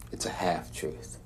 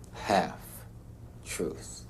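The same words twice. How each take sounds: First: Said in the usual way. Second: HALF-TRUTH split by a long pause, very soft; mulling it over. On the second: Acted. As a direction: turn "Half-truth" over slowly, word by word, quietly. Repeats the term, mulling it over.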